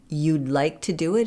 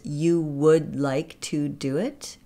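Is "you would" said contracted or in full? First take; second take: contracted; full. First: The words blend into one contracted syllable, you'd. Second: Both words are said fully as two syllables. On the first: "You'd like to do it is" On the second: "is you would like to do it"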